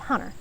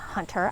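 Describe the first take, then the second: First: The middle T is dropped. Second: The middle T is clearly pronounced. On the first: "I'm not big at enunciating my T's" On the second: "I don't call him Hunter"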